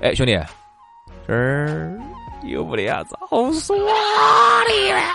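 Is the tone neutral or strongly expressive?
expressive. It is asked in a marked, expressive tone.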